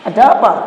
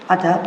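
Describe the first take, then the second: First: It is said in a louder, harder voice. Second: It is said in a lower, softer voice. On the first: It is how one speaks to other people. "Kalau sama orang lain kan" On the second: It shows humility toward one's parents. "kita turunin. Dilembutin, lebih lembut"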